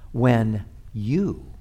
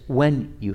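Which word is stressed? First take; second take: you; when. First: The stress falls on the word you. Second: The stress falls on the word when. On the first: It is addressed personally to the disciple. "placing the emphasis on the second word of the phrase" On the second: It is expected, not optional. "Jesus doesn't say, if you fast. He says, when you fast"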